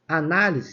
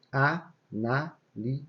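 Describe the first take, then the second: First: Said in the usual way. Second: "análise" drawn out slowly, syllable by syllable. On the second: Shown as a demonstration. Teacher splitting análise into syllables for students, slow and deliberate. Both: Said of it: "se você for separar a sílaba".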